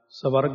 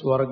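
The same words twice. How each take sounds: First: A full vowel separates the s and v. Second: The s and v are joined as a cluster. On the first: The speaker calls it wrong. "ਨਹੀਂ" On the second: The speaker calls it right. "ਇਉਂ ਬੋਲਣਾ, ... ਕਿਉਂਕਿ ਅੱਧਾ ਵਾਹਵਾ ਇਹ"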